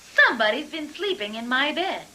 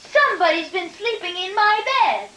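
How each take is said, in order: First: It is said in a middle-sized voice. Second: It is said in a tiny voice.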